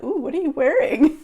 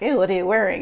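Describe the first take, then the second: First: It sounds delighted, like an impressed compliment. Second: It sounds disgusted, like a bad smell.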